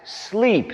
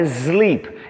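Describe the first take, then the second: First: The word begins with a hissing S sound. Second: The word begins with a buzzing Z sound. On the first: The speaker calls it right. "é S, som de S" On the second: The speaker calls it wrong. "tem mania de fazer som de Z"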